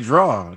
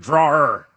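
First: The word ends without an r sound. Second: The word ends with an r sound. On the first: The speaker calls it wrong. "I just say draw" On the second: The speaker calls it right. "She's like, it's a drawer"

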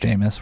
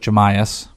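First: The name is pronounced in its standard way. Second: The name is pronounced in an altered, mocking way. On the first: This is the name's real pronunciation. The speaker calls it right. "We know it's Jameis" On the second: It mocks someone else's mispronunciation. The speaker calls it wrong. "We're just making fun of somebody"

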